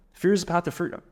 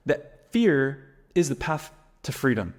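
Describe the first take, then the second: First: Said in the usual way. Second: Slow and weighty, stress on fear; slow emphatic motto. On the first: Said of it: "The first F is what leads to the second F". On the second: Shown as a demonstration. Coach hammering his motto to viewers, slow and emphatic. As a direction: lay down the slogan slowly, leaning on fear. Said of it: "F is F".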